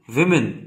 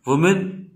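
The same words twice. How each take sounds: First: विमेन said with a short i, wi-men; विमेन spoken as the plural, front i vowel; women plural. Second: वुमेन said with a short u, wuh-men; वुमेन spoken as the singular, rounded first vowel; woman singular. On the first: Teacher models plural विमेन with an i sound. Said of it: "plural को बोलते हैं". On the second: Teacher models singular वुमेन with rounded u. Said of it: "singular को बोलते हैं". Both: Shown as a demonstration.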